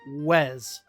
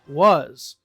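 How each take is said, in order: First: The vowel is an 'eh' sound. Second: The vowel is a relaxed 'uh' sound. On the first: The speaker calls it wrong. "but we wouldn't say Wes" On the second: The speaker calls it right. "we might say wa, uh, uh, was"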